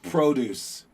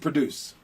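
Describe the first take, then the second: First: The stress falls on the first syllable. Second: The stress falls on the second syllable. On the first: It names vegetables and farm goods. The speaker calls it wrong. "I always want to pronounce it produce" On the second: It means to make or create. The speaker calls it right. "but no, the word is produce"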